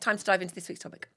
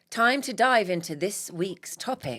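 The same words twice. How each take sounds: First: The phrase is spoken quickly. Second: The phrase is spoken slowly. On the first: The speaker calls it wrong. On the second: The speaker calls it right.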